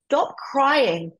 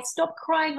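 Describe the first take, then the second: First: Firm, scolding mother; mock-stern parent cutting off tears; stern mom. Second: Higher, coaxing stop crying; soothing mom. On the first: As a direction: order the crying boy to stop, sternly. Mom scolds son crying after bullying. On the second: Acted. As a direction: gently shush the boy, pitched higher.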